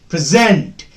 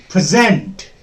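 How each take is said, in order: The two takes are said the same way.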